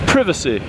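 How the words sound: It is said in a British way. "you say over there. You say privacy"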